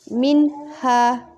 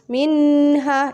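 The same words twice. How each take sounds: First: The n is said clearly without a nasal hum. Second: The n is held with a long nasal hum. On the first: The speaker calls it right. "dia harus dibaca jelas" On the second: The speaker calls it wrong. "tidak boleh dibaca dengung minha, itu salah"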